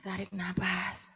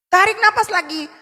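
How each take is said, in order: First: Soft, slow breathing cue; slow deep breath cue. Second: Said in the usual way. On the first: Shown as a demonstration. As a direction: draw it out like a long inhale. (contoh menarik napas pelan dan lembut) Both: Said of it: "Tarik napas yang dalam".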